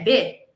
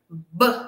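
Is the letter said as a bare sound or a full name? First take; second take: full name; bare sound. First: The letter is said as a full syllable with a vowel. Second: Only a short consonant sound is made, without a vowel. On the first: This is what the letter is called. "o nome dela é B" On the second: This is the sound the letter makes. "o som da letra B é B"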